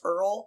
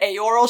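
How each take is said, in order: First: The name is said like the word 'earl'. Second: The name is not said like the word 'earl'. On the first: The speaker calls it wrong. "should be just be pronounced Earl" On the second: The speaker calls it right. "how they try to convince us that Eorl"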